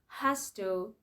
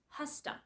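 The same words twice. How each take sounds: First: Both words are said fully and separately. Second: The words are blended into one reduced form. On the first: "Has to becomes" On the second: "becomes has to"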